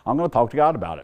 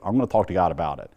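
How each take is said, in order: First: "God" hit hard, faster and a bit higher; emphatic repeat. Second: Said in the usual way. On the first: Real, not acted. Repeating it after doctor's "What?.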